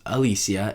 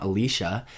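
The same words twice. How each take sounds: First: "Alicia" with an S sound, no SH; Alicia as uh-LEE-see-uh. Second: "Alicia" with a SH sound; Alicia as uh-LEE-shuh. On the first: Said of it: "whose name was Alicia and not Alicia". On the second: Correcting how a friend's name goes, "Alicia" said uh-LEE-shuh. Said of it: "and not Alicia". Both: Shown as a demonstration.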